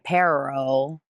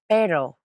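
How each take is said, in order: First: The r is curled back, English style. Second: The r is a quick tap, like d. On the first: The speaker calls it wrong. "Notice I don't say pero. I don't curl my tongue" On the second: The speaker calls it right. "It clicks my palate. Kind of like a D"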